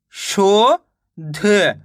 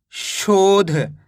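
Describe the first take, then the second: First: शोध split into long sho, pause, then dha; very slow शोध, each letter by itself; sounded out in parts. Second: शोध read as one slow joined word; शोध drawn out but in one piece; syllables joined. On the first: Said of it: "एक अक्षर का उच्चारण करके". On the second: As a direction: blend शोध together with no gap inside. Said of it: "इनको आपस में मिला के पढ़ना है". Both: Shown as a demonstration.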